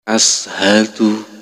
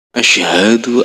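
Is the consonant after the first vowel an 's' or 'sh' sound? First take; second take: s; sh. First: It uses a plain 's' sound. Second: It uses an 'sh' sound. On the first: The speaker calls it wrong. "Kalau kita pakai sin" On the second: The speaker calls it right. "Tapi kita harus pakai shin ya"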